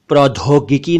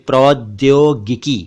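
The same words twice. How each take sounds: First: The middle consonant has an aspirated 'dh' sound. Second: The middle consonant is a 'dy' cluster. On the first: The speaker calls it wrong. "नहीं" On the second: The speaker calls it right. "बल्कि"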